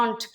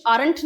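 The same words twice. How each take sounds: First: Aren't with a silent r, like ahnt; aren't said without the r; right pronunciation. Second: Aren't with the r sounded; aren't said with the r spoken clearly; wrong pronunciation. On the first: Teacher shows the correct aren't with silent r. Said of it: "pronunciation होता है aren't". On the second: Teacher shows the wrong way to say aren't. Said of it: "pronunciation aren't नहीं होता". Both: Shown as a demonstration.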